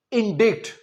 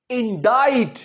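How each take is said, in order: First: Indikt, wrong pronunciation with a sounded k; इंडिक्ट said as in-dikt with the k; wrong reading. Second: इंडाइट said in-dite, silent c; इंडाइट with the k dropped, rhymes with bite; correct pronunciation. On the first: Teacher shows the wrong way: इंडिक्ट with k. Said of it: "पर ये इंडिक्ट नहीं है". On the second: Teacher gives the right way: इंडाइट, in-dite. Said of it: "इसका सही उच्चारण है". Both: Shown as a demonstration.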